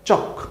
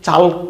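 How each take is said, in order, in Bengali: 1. L নীরব, সোজা K-তে চলে যায়। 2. L ধ্বনিটি K-এর আগে উচ্চারিত হয়। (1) "উচ্চারণ কিন্তু চক" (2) "এরকম না"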